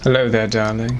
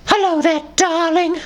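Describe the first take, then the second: First: It is in a British gentleman voice. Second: It is in a Dobby house-elf voice.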